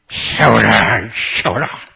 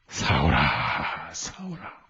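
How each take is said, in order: First: It is said angrily, through gritted teeth. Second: It is said in a warm, loving voice.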